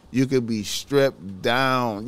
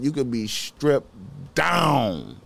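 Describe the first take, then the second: First: Said in the usual way. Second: "You could be stripped down" slow, drawn out and forceful; slow emphatic repeat. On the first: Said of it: "repeated for emphasis". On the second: Shown as a demonstration. Warning healthy viewers, slow and forceful. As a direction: lean hard on every word of "You could be stripped down". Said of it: "repeated with more force".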